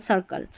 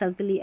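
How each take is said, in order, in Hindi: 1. यह शब्द साधारण l की आवाज़ पर खत्म होता है। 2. यह शब्द एक अतिरिक्त lee की आवाज़ पर खत्म होता है। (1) "इसको लॉ पढ़ देना है" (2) "ऐसे पढ़ दिया, गलत उच्चारण"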